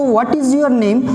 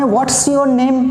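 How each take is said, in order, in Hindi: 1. What और is अलग-अलग शब्दों की तरह बोले जाते हैं। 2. What और is एक ही शब्द में जुड़कर बोले जाते हैं।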